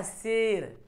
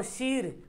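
First: शेर with an e, "sher"; usual spoken form. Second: शीर with a long ee, "sheer"; spelling pronunciation. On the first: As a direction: say शेर with e, not ee. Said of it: "पढ़ते क्या?". (शेर में ए की आवाज़) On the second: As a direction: stretch the ee in शीर. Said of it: "क्या लिखा हुआ?". (शीर में ई खींचकर) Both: Shown as a demonstration.

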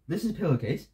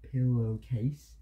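First: Said in the usual way. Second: PILLOWCASE drawn out slowly and softer; slow demonstration. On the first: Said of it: "Look, ready?". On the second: Shown as a demonstration. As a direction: stretch out each part of "Pillowcase" for a lip-reader. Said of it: "Look, ready? This is pillowcase".

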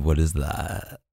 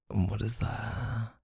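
First: Said in the usual way. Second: Softer, slower, drawn-out what is that; hushed, slow teasing question to the partner. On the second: Acted. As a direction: lean in and ask it softly, stretching it out. Teasing guess during blindfold game.

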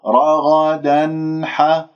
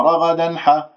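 First: رغدا ح slowly, the final n fully heard before ح; clear sounded noon. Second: رغدا ح quickly, the n cut short before ح; cut-off noon. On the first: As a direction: let the n ring in رغدا ح. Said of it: "أسمع صوت النون المظهرة". (إظهار النون في رغدا ح) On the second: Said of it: "ما أقطع". (قطع صوت النون في رغدا ح) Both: Shown as a demonstration.

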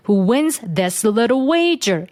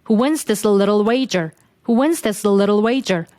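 First: "this" with the tongue pushed between the teeth, slow; careful dental th in "this", dragging the pace; full tongue-out th. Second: "this" with the tongue only touching behind the teeth; smooth linked "this", tongue barely touching; light linked th. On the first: Teacher showing the slow, unnatural th version. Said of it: "이렇게 하면은 속도가 느려진단 말이에요". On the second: Teacher showing the smooth natural th version. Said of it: "혀를 윗니 뒷부분에만 살짝 갖다 대서". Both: Shown as a demonstration.

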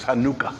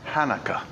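First: "Hanukkah" as hah-NOO-kah, middle syllable stressed; Hebrew pronunciation. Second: "Hanukkah" as HAN-uh-kuh, stress up front; everyday pronunciation. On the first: Preacher getting technical for the congregation, "Hanukkah" as hah-NOO-kah. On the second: Preacher giving the feast's familiar name, "Hanukkah" as HAN-uh-kuh. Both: Shown as a demonstration. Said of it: "in the Hebrew pronunciation of it is".

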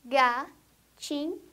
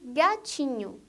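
First: "gatinho" slowly split into ga, ti, nho; three separate beats in "gatinho"; syllable by syllable. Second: Said in the usual way. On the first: Shown as a demonstration. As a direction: pause after each syllable of "gatinho". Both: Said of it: "A palavra que tem três sílabas".

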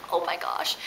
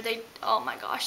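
First: Breathy whispered amazement; whispered oh my gosh. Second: Said in the usual way. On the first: Retold or imitated. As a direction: gasp it out in a whisper. Retelling her reaction to hummus.

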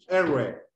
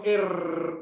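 First: R with tongue curled inward, untrilled; English R. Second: R trilled on the tongue as in Spanish; Spanish rolled R. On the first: Teacher shows pupils how English sounds, R curled inward. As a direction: curl the tongue back for R, no trill. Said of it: "se pronuncia la lengua enrollada hacia adentro". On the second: Teacher shows pupils the Spanish way, R rolled. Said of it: "que nosotros decimos R". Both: Shown as a demonstration.

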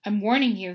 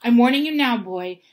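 First: Firm warning at ordinary pitch, somewhat louder. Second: Angry uncle laying down the law; menacing warning. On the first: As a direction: give a contained but forceful warning. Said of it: "he had said". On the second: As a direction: bear down hard on a forceful warning. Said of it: "putting his large purple face right up close". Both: A narrator's reading.

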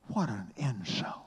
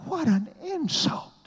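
First: Said in the usual way. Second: Much higher and louder, rising in disbelief; outraged exclamation. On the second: Shown as a demonstration. Preacher repeating the insult to the crowd, shocked and high.

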